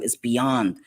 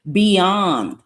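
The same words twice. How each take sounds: First: Said in the usual way. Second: "beyond" hit loud on its own; emphatic repeat. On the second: Real, not acted. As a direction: punch "beyond" as a disgusted verdict.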